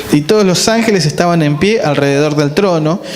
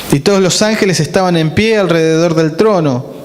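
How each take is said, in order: The two takes are said the same way.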